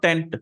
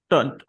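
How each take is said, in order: First: The syllable has a full 'e' vowel. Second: The syllable has a reduced, weak vowel. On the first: The speaker calls it wrong. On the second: The speaker calls it right.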